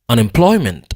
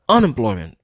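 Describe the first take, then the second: First: The stress is on the syllable ploy. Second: The stress is on the syllable un. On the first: The speaker calls it right. "ploy prononcer plus fort que tout" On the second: The speaker calls it wrong. "Si m'ta prononcer on nan plus fort que tout"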